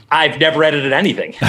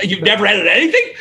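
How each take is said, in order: First: Said in the usual way. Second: High-pitched incredulous question, imitated with a laugh; laughing disbelief. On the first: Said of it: "I was like". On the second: Hiring boss to a would-be editor with no experience, laughing disbelief. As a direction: imitate his amused disbelief, rising at the end. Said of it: "and he laughed".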